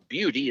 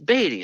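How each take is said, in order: First: The name sounds like the word beauty. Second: The name sounds like the surname Beatty. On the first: The speaker calls it wrong. "we were pronouncing it Beauty first" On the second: The speaker calls it right. "it's Beatty"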